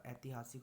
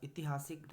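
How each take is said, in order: First: ऐतिहासिक begun with 'ai', softer; correct form. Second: ऐतिहासिक begun with short 'i'; wrong form. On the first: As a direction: open ऐतिहासिक as 'aiti-'. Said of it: "होता है". (ऐतिहासिक को 'ऐ' से शुरू) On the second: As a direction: open ऐतिहासिक as 'iti-'. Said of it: "नहीं होता". (ऐतिहासिक को 'इति' से शुरू) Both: Shown as a demonstration.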